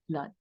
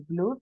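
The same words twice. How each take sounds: First: "blood" with a short "uh" vowel; "blood" said as "blad"; correct pronunciation. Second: "blood" said as "blut" with a u sound; "blood" with oo read as "u"; wrong spelling-based reading. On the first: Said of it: "normalmente decimos blood". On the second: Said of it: "no vamos a decir blood". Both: Shown as a demonstration.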